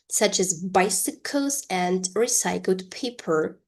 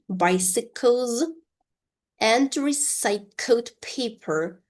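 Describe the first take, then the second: First: Said in the usual way. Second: Slow, higher-pitched model reading; slow repeat-after-me. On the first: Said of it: "one more time slowly". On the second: Shown as a demonstration. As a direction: separate the words slowly for learners. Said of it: "pronounce this sentence one more time slowly".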